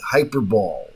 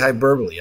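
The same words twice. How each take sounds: First: The word ends in one syllable, 'bowl'. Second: The word ends in two syllables, 'bo-lee'. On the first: The speaker calls it wrong. "I say hyperbole because that's what it looks like" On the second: The speaker calls it right. "I never say hyperbole"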